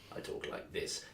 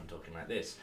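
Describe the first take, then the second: First: He speaks in the character Yizik's voice. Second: He speaks in his own normal voice.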